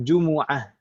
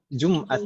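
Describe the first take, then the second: First: The m is followed by an u vowel. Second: The m is followed directly by a consonant. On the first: This is the original form. The speaker calls it right. "Aslinya mimnya domah" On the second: This is the borrowed everyday form. The speaker calls it wrong. "mimnya sukun ya"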